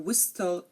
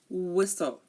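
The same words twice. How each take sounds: First: The T sound is pronounced. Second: The T sound is silent. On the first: The speaker calls it wrong. "You are not hearing me say" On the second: The speaker calls it right.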